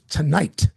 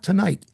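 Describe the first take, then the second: First: The T sounds are crisp and clearly pronounced. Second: The T sounds are soft and slurred. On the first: The speaker calls it right. "That's crossing your T's" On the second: The speaker calls it wrong. "you said tonight. It's not tonight"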